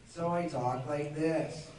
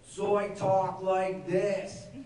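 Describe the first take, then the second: First: It sounds like a relaxed teenage skater. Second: It sounds like a bratty twelve-year-old boy.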